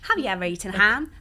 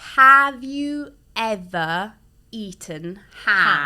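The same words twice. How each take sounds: First: It is said quickly, at a fast pace. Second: It is said at a normal, unhurried pace.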